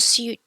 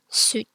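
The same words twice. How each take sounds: First: A y-glide comes before the vowel. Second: No y-glide comes before the vowel. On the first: The speaker calls it wrong. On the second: The speaker calls it right.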